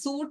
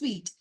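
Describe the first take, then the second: First: The word sounds like 'suit', ending in -oot. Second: The word sounds like 'sweet', ending in -eet. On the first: The speaker calls it wrong. "സൂട്ട് അല്ല" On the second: The speaker calls it right. "സ്വീറ്റ് എന്നാണ് pronounce ചെയ്യുന്നത്"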